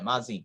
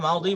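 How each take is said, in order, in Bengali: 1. মাঝের ব্যঞ্জনধ্বনিটি একটি z ধ্বনি। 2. মাঝের ব্যঞ্জনধ্বনিটি একটি d ধ্বনি। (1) "আমাদের দেশে মাজি বলে" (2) "আরবেরা মাদি বলে"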